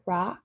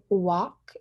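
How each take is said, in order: First: The word starts with an R sound. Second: The word starts with a W sound. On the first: "that R sound in rocks" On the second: "replacing that R with a W"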